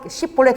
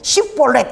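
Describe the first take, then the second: First: The word begins with a 'sh' sound. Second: The word begins with a plain 's' sound. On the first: The speaker calls it right. "시볼렛 이렇게 살 시볼렛 해야 되는데" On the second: The speaker calls it wrong. "이게 안 되는 거야. 시볼렛 이렇게 나오는 거야"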